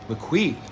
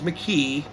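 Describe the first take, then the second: First: The name is said with a w after k. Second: The name is said without a w after k. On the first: The speaker calls it right. "he said it's pronounced McQuee" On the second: The speaker calls it wrong. "I thought it was McKee"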